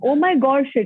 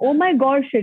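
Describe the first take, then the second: First: The phrase is said with strong, heartfelt feeling. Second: The same.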